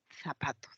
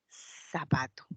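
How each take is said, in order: First: The first consonant is a th sound. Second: The first consonant is an s sound. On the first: This is not how it is said in Peru. "con la interdental" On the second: This is how it is said in Peru. "hacemos un ceseo, ¿no? Decimos zapato"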